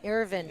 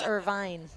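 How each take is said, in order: First: The name ends with a 'vin' sound. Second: The name ends with a 'vine' sound. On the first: This is how the owner says it. The speaker calls it right. "Irvin, even though there's an E at the end" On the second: This is the common mistaken version. The speaker calls it wrong. "People think it's Irvine"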